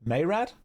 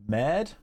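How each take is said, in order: First: Mayrad in two syllables, MAY-rad, asked with a rising question; saying Mayrad. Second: Mad said as one short syllable, like the word mad, asked with a rise; saying Mad. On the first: Chat asks him to pronounce a character name, so he tries Mayrad. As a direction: try the longer Mayrad?. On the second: Chat asks him to pronounce a character name, so he tries Mad. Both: Shown as a demonstration. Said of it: "Can you actually pronounce my character's name correctly?".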